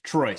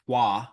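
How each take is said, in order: First: It rhymes with choice, ending in an s sound. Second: It ends on a vowel, with no s sound. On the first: The speaker calls it right. "it's tr like like the word choice, but with T R in the front" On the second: The speaker calls it wrong. "it has been mispronounced toi"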